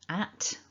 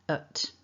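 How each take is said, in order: First: The vowel is the full open a sound. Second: The vowel is a relaxed schwa sound. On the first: "strong form ... at, with the a vowel" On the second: "once we weaken this word, it becomes ut"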